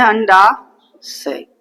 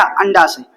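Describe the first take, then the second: First: अंडाशय stretched long and slow; teacher drawing out अंडाशय for the class. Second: Said in the usual way. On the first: Shown as a demonstration. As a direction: drag out अंडाशय for students to repeat. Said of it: "क्या बोलते हैं?". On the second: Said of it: "इसको बोलते हैं क्या?".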